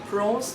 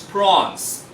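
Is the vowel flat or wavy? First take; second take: wavy; flat. First: The vowel glides, sounding wavy. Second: The vowel stays steady and flat. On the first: The speaker calls it wrong. "Don't say prawns" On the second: The speaker calls it right. "This one is prawns"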